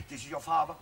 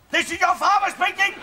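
First: Low-key, much softer announcement; quietly pulling parental rank; restrained stern father. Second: Raised voice, pulling rank; insistent father. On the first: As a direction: keep it soft and controlled. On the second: Repeats it louder to daughter. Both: Acted.

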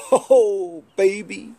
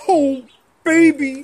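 First: Hint of a blustery TV husband; a light first go at Kramden's "baby"; Ralph Kramden voice. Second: Higher, louder blustery Kramden bellow; Ralph Kramden impression. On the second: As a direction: belt it out like Kramden. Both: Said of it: "that's like Ralph Kramden".

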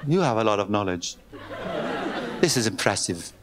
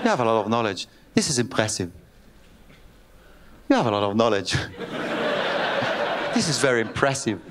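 First: Put-on low, slow Scottish-accented praise; mock Scottish woman, impressed. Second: Put-on laughing, low Scottish-accented praise; mock Scottish woman, breaking up laughing. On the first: Woman impressed by his knowledge, in a Scottish accent. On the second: Woman repeats her praise, laughing, in a Scottish accent. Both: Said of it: "למה עשיתי אותה סקוטית".

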